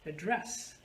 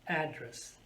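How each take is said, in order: First: The stress is on the second syllable. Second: The stress is on the first syllable. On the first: It is a verb meaning to speak to someone. "if I change the stress on the second syllable" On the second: It is a noun meaning a place where you live. "I'm putting stress on which syllable? The first one"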